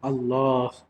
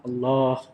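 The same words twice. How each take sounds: No difference in how they are said.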